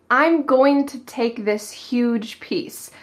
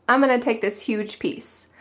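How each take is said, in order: First: "I'm going to take" said slowly, every word full; slow, careful, unreduced "going to"; full careful form. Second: "gonna" run quickly in place of "going to"; casual connected speech, "I'm gonna" as one word; natural reduced form. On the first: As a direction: enunciate "going to" as two separate full words. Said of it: "But did it sound like that? Nope". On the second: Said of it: "He said". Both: Shown as a demonstration.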